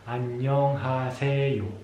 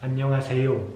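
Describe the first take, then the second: First: It is said very slowly, syllable by syllable. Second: It is said at a moderate, somewhat faster speed. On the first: "al principio vamos muy lentamente sílaba a sílaba" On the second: "Luego un poco más rápido"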